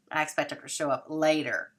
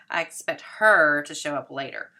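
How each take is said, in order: First: I stressed, rest of sentence falling. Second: Her punched much louder, falling off after; stress on her. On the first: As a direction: lean on the first word I. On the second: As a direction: hit the word her hard and drop. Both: Shown as a demonstration. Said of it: "We're changing our stress".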